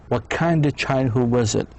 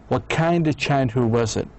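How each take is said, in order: Both takes have the same delivery.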